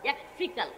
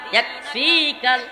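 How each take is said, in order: First: The vowel in 'fi' is kept short. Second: The vowel in 'fi' is drawn out long. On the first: The speaker calls it right. "ফি কিন্তু টান হবে না" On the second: The speaker calls it wrong. "এমনকি আমিও এভাবে পড়তাম"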